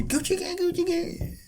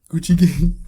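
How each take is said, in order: First: Very high, chirpy chanted hook; mock happy. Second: Hammed-up sad version of a rap hook; mock sad. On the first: Showing co-host the happy version, mock happy. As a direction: sing it sky-high like a happy tune. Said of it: "Or turn it happy". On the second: Showing co-host it works as a sad song, mock sad. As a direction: sing the hook as if heartbroken, for laughs. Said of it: "think about it as a sad song". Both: Shown as a demonstration.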